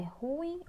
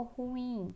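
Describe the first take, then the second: First: Ruim slowly, as "RU-im"; stress on first syllable. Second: Ruim slowly, as "ru-IM"; stress on last syllable. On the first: Teacher asking which is right, ruim stressed on RU. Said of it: "é ruim ou ruim?". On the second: Teacher asking which is right, ruim stressed on IM. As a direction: draw out the IM of ruim. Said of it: "a sílaba mais forte é o I M". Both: Shown as a demonstration.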